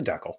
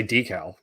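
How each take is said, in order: First: "Deckel" with a short e, rhyming with freckle; decal as DECK-ul. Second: "decal" with a long ee in the first syllable; decal as DEE-cal. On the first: Correcting others' way, "Deckel" said as DECK-ul. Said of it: "No, it's a Deckel". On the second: Telling co-host how others say it, "decal" as DEE-cal. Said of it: "A lot of people say decal". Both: Shown as a demonstration.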